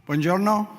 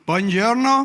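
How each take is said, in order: First: Said in the usual way. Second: Hammed-up Scottish accent, higher and louder; mock Scottish accent. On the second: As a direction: call it out in a joking fake Scottish accent. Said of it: "As said in my best Scottish accent".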